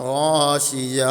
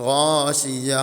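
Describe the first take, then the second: Both takes have the same delivery.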